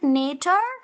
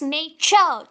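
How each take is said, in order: First: The middle consonant is not a 'ch' sound. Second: The middle consonant is a 'ch' sound. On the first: The speaker calls it wrong. "Is it nature? No" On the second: The speaker calls it right. "it's nature. Cha"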